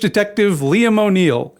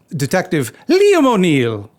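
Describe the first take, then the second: First: It is said in the speaker's ordinary accent. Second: It is said in an exaggerated Irish accent. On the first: The speaker calls it wrong. "I pronounced that incorrectly" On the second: The speaker calls it right. "my shitty attempt at an Irish accent"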